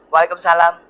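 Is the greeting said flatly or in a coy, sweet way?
flatly. It is said in a plain, flat way.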